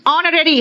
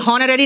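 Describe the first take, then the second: First: The word begins with a vowel sound. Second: The word begins with an h sound. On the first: The speaker calls it right. "ऑनररी होता है" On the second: The speaker calls it wrong. "हॉनररी नहीं है ये"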